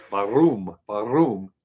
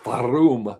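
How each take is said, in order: First: Warum with a German v sound and a rolled r; German pronunciation. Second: Warum said with a German v and rolled r; German word. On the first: Practising German pronunciation of warum aloud. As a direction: say warum as vah-room, rolling the r. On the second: Practising German pronunciation of warum. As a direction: roll the r in warum, start with a v. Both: Shown as a demonstration. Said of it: "my practice word was warum".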